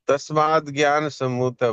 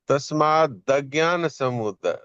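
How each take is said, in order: First: The vowel before 'jnana' is dropped. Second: The vowel before 'jnana' is fully pronounced. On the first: It means born of knowledge. The speaker calls it wrong. "इसमें जो भूल थी वो ये थी" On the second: It means born of ignorance. The speaker calls it right. "द पूरा बोलना है"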